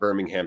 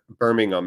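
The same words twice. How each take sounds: First: The last syllable is a full, clear 'ham'. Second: The last syllable is reduced and unstressed. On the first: The speaker calls it wrong. "not Birmingham" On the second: The speaker calls it right. "it's pronounced Birmingham"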